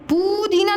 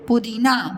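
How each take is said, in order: First: The first vowel is drawn out long. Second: The first vowel is kept short. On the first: The speaker calls it wrong. "पुदीना नहीं बोलते" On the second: The speaker calls it right. "क्या बोलते हैं? पुदीना"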